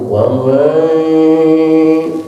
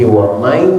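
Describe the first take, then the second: First: Some breath escapes through the nose, a nasal hum. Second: The ya sound is fully pressed, with no nasal hum. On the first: The speaker calls it right. "ada nafas sebagian yang keluar lewat hidung" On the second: The speaker calls it wrong. "jangan menekankan seratus persen kepada huruf ya seperti wamai"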